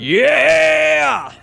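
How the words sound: It is said with a gruff rasp.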